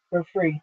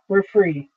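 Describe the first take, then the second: First: Much softer, fading into a sob; quiet release. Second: Said in the usual way. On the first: A narrator's reading. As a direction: let it die away, released. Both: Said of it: "sobbing more fully, released".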